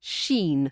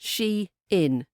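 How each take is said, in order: First: It is said as one syllable, like sheen. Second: It is said as two syllables, she-in. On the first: The speaker calls it wrong. "I've always pronounced it as Sheen" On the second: The speaker calls it right. "the correct pronunciation"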